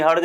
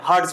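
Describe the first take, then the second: First: हर्ज misread as the everyday word "harj"; wrong pronunciation. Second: हर्ज said "harts", ending in a crisp ts; हर्ज pronounced like English "Hertz"; correct pronunciation of Hertz. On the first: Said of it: "नहीं, हर्ज नहीं पढ़ते हैं". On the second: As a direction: end हर्ज on "ts", not j. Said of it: "हर्ज पढ़ते हैं". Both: Shown as a demonstration.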